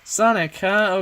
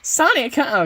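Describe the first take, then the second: First: It is said in the speaker's normal voice. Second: It is said in a SpongeBob impression voice.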